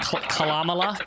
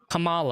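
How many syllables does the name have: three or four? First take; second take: four; three. First: The name is garbled with four syllables. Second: The name is said cleanly with three syllables. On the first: The speaker calls it wrong. "I'm saying it wrong intentionally" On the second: The speaker calls it right. "I know how it's said"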